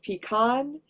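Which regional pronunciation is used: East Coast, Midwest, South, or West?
West. It uses the Western regional pronunciation. "in the West, it's pecan, and that's the dominant pronunciation"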